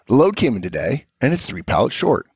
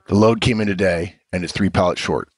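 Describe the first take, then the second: First: The tone sounds relaxed and friendly. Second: The tone sounds cold and irritated. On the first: The writer has a good relationship with the reader. "as if I'm Vernon and I have a relationship with Charlie" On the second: The writer has no relationship with the reader. "as if Charlie hasn't built a relationship with Vernon"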